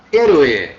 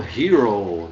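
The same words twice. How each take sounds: First: HÉROE in Spanish, silent h, "EH-ro-eh"; Spanish pronunciation. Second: HERO read the English way, like "HEE-roh"; English misreading. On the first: Teacher correcting the English reading for the class, Spanish pronunciation of HÉROE. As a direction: slowly model "héroe", stressed first syllable, tapped r. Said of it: "é aula de espanhol". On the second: Unwary readers misreading a Spanish word, English pronunciation of HERO. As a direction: say "hero" as English, drawing out the final oh. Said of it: "Os mais desavisados leriam". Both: Shown as a demonstration.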